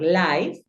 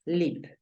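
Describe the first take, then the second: First: Live said as laiv with a long I; mispronounced live, like the letter I; wrong pronunciation. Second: Live said with a short i, as in sit; live with the short English i, no glide; correct pronunciation. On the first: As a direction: say live to rhyme with five. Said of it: "no lo vas a pronunciar live". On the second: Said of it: "Tú la pronuncias live". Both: Shown as a demonstration.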